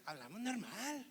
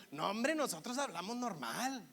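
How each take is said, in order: First: Soft mocking echo in regio accent; teasing, hushed regio mimicry; mimicked Monterrey accent. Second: Sing-song regio protest; punchy, lilting regio accent; Monterrey accent. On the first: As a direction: parrot it back quietly in sing-song Monterrey accent. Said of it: "Y me hacen". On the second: Acted. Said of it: "ese acento así como golpeadón, cantadito".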